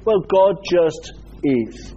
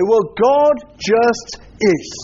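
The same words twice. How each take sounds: First: Dismissive. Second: Slow, offhand shrug of a line; dismissive. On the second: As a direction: brush it off slowly. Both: Shown as a demonstration. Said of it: "in a dismissive way".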